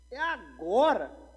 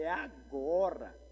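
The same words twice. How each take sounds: First: Loud, high, drawn-out exclamation; swooping, hammed-up "this is my moment"; triumphant resolve. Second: Drawn-out, relishing "now's my moment"; savoring a big opportunity, measured volume; eager resolve. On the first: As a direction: belt it out slowly, seizing the big chance. Retold reaction, repeated with escalation. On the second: Retold or imitated. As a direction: stretch it out, seizing the chance. Retold eager reaction on spotting idol.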